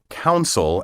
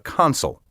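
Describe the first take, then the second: First: The first syllable sounds like 'coun'. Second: The first syllable sounds like 'con'. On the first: The speaker calls it wrong. "often mispronounced council" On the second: The speaker calls it right. "ask to see the consul"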